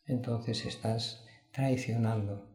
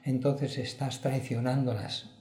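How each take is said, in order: First: "entonces estás traicionando" said slow and softer, weighty; solemn slowed-down warning; slow, grave repeat. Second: Said in the usual way. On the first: Real, not acted. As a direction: let "traicionando" sink in, dropping the voice.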